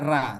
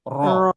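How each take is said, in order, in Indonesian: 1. Vokalnya 'a' yang ringan dan terbuka. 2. Vokalnya 'o' yang berat dan membulat. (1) "Tak ada ra" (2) "Tapi ro"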